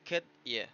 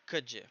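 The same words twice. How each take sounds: First: The two words are said separately and fully. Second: The two words are run together smoothly. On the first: This is how it is written. "Acá dice could you" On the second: This is how it is really said. "lo que acabo de decir"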